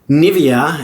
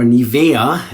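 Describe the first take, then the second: First: The name is said with an English pronunciation. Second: The name is said with a German pronunciation. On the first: "as we in English would say" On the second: "as we would say in uh, Germany"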